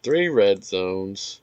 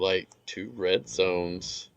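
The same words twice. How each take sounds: First: Three said slowly and loudly as a correction; stress on Three. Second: Said in the usual way. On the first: Real, not acted. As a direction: lean hard on Three, slow. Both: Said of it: "Okay, I lied".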